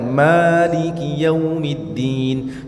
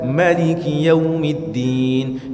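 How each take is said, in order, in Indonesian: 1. Vokal setelah huruf m dibaca panjang. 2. Vokal setelah huruf m dibaca pendek. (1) "Kalau yang pertama tadi mimnya dipanjangkan" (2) "Jadi mimnya dipendekkan"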